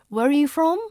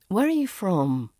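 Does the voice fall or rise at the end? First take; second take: rise; fall. First: The voice rises at the end. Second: The voice falls at the end. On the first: It sounds uncertain. The speaker calls it wrong. "if you put a rising intonation" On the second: It sounds confident. The speaker calls it right. "They fall at the end"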